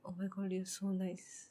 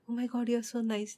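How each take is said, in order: First: It sounds pitying, as if feeling sorry. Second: It sounds like sincere, admiring praise.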